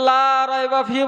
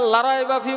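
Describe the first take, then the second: First: The vowel in 'la' is held long. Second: The vowel in 'la' is cut short. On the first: There is no doubt in it. The speaker calls it right. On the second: There is surely doubt in it. The speaker calls it wrong.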